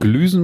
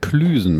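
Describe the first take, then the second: First: The word begins with a soft G sound. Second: The word begins with a hard K sound. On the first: The speaker calls it wrong. "Man sagt übrigens nicht Glüsen" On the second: The speaker calls it right. "man sagt Klüsen mit K"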